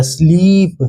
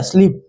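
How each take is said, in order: First: "स्लीप" drawn out on a long ee; sounds blended slowly. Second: Said in the usual way. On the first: Shown as a demonstration. Teacher joining three sounds for children, "स्लीप" blended and stretched. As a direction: stretch "स्लीप" as the sounds join into one word. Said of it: "जब तीनों को जोड़ेंगे". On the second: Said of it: "ये क्या हो जाएगा?".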